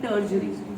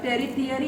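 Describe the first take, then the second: First: The middle is said with a j-like sound. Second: The middle is said with a clear t sound. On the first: The speaker calls it right. "इसको बोलेंगे टर्जरी" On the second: The speaker calls it wrong. "इसको टेरी थियरी नहीं बोलेंगे"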